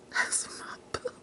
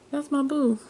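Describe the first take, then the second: First: Hushed, voiceless whisper; fond whisper. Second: High-pitched, fully voiced cooing; voiced fond gushing. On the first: Doting on her favorite's picture, fond whisper. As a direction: whisper it like a sweet secret. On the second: Showing off her favorite's picture, high fond coo. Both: Real, not acted.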